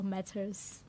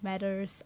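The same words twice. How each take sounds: First: It is said with a British accent. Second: It is said with an American accent. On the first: "the British" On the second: "American accent"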